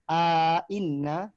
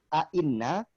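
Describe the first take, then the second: First: A long vowel is inserted between the two glottal stops. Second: The two glottal stops follow with no inserted vowel. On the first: "bisa uh, idkhal" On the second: "tanpa uh, idkhal"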